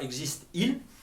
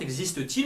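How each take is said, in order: First: The verb and pronoun meet with no t sound. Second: A t sound links the verb and the pronoun. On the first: The speaker calls it wrong. "et pas" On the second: The speaker calls it right. "pour donner une liaison élégante"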